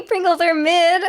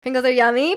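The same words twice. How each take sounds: First: Pringles drawn out high and slow; stress on Pringles. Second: Said in the usual way. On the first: Shown as a demonstration. Contradicting chat, stressing Pringles high and slow. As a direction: lean hard on Pringles, slowly.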